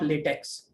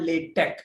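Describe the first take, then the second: First: The word ends with a ks sound. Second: The word ends with a plain k sound. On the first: The speaker calls it wrong. "Not लेटेक्स" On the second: The speaker calls it right. "It is called लेटेक"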